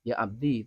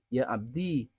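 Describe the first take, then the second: First: The final vowel is short. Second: The final vowel is long. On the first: "tanpa ya" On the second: "ada ya-nya"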